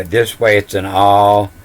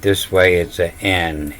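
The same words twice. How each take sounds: First: Letters read as the word "all", spoken plainly as ɔl. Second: "N" said as the letter name, en, with a nasal vowel; reading as N. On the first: Teaching the first reading of the letters, "all" said plainly. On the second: Contrasting the second reading of the letters, "N" said clearly. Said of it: "but this way it's an N". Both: Shown as a demonstration.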